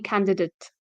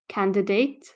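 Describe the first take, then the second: First: The last syllable is weak and reduced. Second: The last syllable is said fully like 'date'. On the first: The speaker calls it right. "but it's actually candidate" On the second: The speaker calls it wrong. "you would think it's like date"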